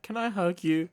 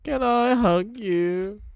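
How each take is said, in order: First: A pleading fan voice, pitched way up; mock pleading voice. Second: Very high, slow pleading ask; mock pleading voice. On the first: Imitating [name] asking a stranger for a hug, high and pleading. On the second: Imitating [name] begging [name] for a hug, very high. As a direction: stretch it out like a begging child. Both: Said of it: "'cause he's like".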